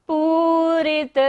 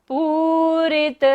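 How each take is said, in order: No difference in how they are said.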